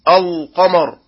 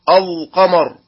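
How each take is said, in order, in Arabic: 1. صوت اللام ثقيل وغليظ. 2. صوت اللام ثقيل وغليظ.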